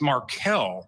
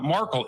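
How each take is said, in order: First: The name is said like 'Markel'. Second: The name is said like 'Markle'. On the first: The speaker calls it right. "it's Markel" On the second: The speaker calls it wrong. "It's not Markle"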